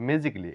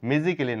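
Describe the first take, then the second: First: The ending is said without the 'a' syllable. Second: The ending is said with an extra 'a' syllable. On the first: The speaker calls it right. "বলবো ম্যাজিকলি" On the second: The speaker calls it wrong. "ম্যাজিক্যালি না বলে"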